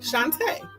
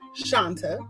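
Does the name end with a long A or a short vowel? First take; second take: long A; short vowel. First: The name ends with a long A sound. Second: The name ends with a short, plain vowel. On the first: The speaker calls it right. "it is a long A at the end" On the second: The speaker calls it wrong. "So if you said Shanta"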